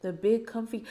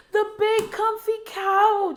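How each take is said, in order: First: Said in the usual way. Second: High, loud, slow joyful cry of recognition; excited squeal. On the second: Real, not acted. Finding the childhood show again, high excited squeal. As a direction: squeal the name like a long-lost friend.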